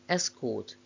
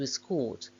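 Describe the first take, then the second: First: The stress is on the first syllable. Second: The stress is on the second syllable. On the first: It is used as a noun. "main stress of the nouns is on the first syllable" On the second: It is used as a verb. "main stress of the verbs is on the second syllable"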